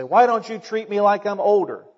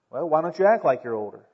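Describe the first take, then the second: First: Lightly voiced young person's complaint; complaining youngster. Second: Level, unimpressed comeback; matter-of-fact retort. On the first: Preacher mimics young people wanting respect, mildly complaining. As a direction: mildly imitate a youngster protesting. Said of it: "Sometimes young people say". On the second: Acted. Adult answers a complaining young person, matter-of-fact retort. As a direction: answer the complaint back evenly.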